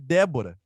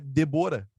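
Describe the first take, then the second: First: The stress is on the first syllable. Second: The stress is on the second syllable. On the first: "Débora é proparoxítona" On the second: "em tese, o nome dela é Debora"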